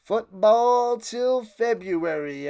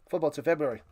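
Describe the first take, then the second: First: Slow, drawn-out announcer call; big slow sign-off catchphrase; announcer slogan. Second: Said in the usual way. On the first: Pretend. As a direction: stretch the slogan like a broadcaster.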